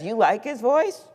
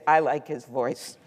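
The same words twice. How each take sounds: First: Higher, rising question of disbelief; incredulous echo. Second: Understated reply. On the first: Stranger astonished by the wife's opinion, incredulous question. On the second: Wife calmly telling a stranger she likes it, understated reply. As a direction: state it simply, letting the tune settle. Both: Retold or imitated.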